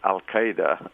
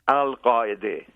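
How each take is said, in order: First: It is said the American way. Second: It is said the Arabic way. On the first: The speaker calls it wrong. "or as you pronounce it" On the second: The speaker calls it right. "the proper pronunciation"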